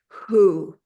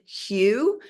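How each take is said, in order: First: The word sounds like 'who', without a y-glide. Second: The word sounds like 'hue', with a y-glide. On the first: This is how Sufis say it. "you'll hear Sufis pronounce it who" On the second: This is the speaker's own way of saying it. "I pronounce it hue"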